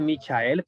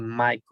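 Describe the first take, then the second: First: It is read letter by letter, Spanish style. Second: It is said with English vowels, like 'Maikol'. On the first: The speaker calls it wrong. "Ahí dice Michael" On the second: The speaker calls it right. "pero Michael se dice Michael. Así se pronuncia"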